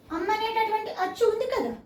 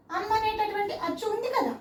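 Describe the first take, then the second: No difference in how they are said.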